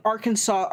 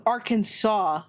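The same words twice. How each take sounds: First: "Arkansas" said "ar-KAN-zus"; Arkansas as ar-KANSAS. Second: "Arkansas" said "AR-kan-saw", drawn out. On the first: Streamer admitting an old mistake, "Arkansas" as "ar-KAN-zus". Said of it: "me calling Arkansas Arkansas". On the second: Streamer disbelieving the correction, "Arkansas" as "AR-kan-saw". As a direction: say "Arkansas" ending in "saw", silent final s. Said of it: "That says Kansas". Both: Shown as a demonstration.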